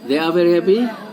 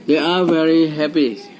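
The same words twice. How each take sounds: First: The voice rises at the end, a question. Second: The voice falls at the end, a statement.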